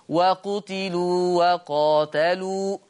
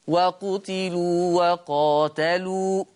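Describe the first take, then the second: The two takes are said the same way.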